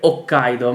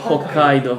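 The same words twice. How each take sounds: First: The initial h is silent. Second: The initial h is lightly breathed. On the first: The speaker calls it wrong. "non devi dire Hokkaido" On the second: The speaker calls it right. "poco poco far sentire che è Hokkaido"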